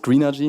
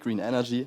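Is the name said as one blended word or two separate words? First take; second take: blended; separate. First: The two words merge into one blended word. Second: The two words are said fully and separately. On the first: The speaker calls it right. "der Name ist Greenergy" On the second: The speaker calls it wrong. "nicht Green Energy"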